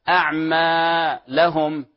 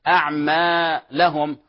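No difference in how they are said.

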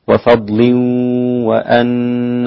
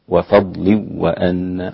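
First: The n merges with a held nasal hum. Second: The n merges without any nasal hum. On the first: "والباقون مثل حفص إدغام مع الغنة" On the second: "مفيش غنة، أصبح إدغام بدون غنة"

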